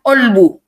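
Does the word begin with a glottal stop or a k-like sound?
glottal stop. It starts with a glottal stop, Egyptian-style.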